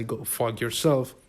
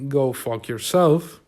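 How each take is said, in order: First: Said in the usual way. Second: Mild, drawn-out friendly dismissal; nice-guy brush-off. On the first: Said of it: "but I would say". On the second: Retold or imitated. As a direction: say it slowly, without malice, as a nice guy would. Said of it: "In a nice way".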